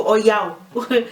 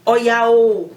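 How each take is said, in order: First: Said in the usual way. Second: "Oya, oh" loud, with the final "oh" drawn out; emphatic oh. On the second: Shown as a demonstration. Teacher showing another way of emphasizing, drawn-out oh. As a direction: stretch and push the "oh" after "Oya". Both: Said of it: "as opposed to".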